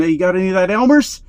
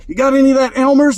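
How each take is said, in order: First: Fast, a bit higher begging ask; eager kid voice. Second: Much higher, louder, fast pleading; desperate kid voice. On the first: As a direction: hustle a classmate for glue. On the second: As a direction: beg urgently like a craving kid. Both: Retold or imitated. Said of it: "walking up to their friend".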